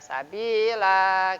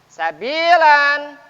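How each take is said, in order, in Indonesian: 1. Kata ini berakhir dengan vokal panjang a. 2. Kata ini berakhir dengan bunyi n.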